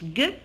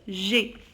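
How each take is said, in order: First: It is a hard g sound, as in 'go'. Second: It is a soft zh sound, as in 'je'. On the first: "glace comme la lettre G, le G, je le prononce G" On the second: "registre, le G, je le prononce G, comme je"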